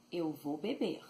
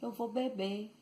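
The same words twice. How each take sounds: First: "beber" with an audible throaty final R; full final R. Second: "beber" ending on a stressed e, no R; dropped final R. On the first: Teacher showing the standard verb, "beber" with final R sounded. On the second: Teacher showing Bahian verbs, "beber" with final R dropped. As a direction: raise the pitch and drop the R of "beber". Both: Shown as a demonstration. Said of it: "But they say".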